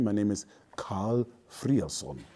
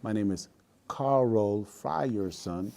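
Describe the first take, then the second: First: The name is said the German way. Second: The name is said the South Carolina way.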